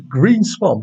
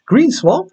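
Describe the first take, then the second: First: Said in the usual way. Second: Green Swamp said much higher, pitch rising at the end; amused disbelief. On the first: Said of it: "Is that a software program?". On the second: Real, not acted. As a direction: squeak out Green Swamp as if it must be a joke. Reading odd name, amused disbelief.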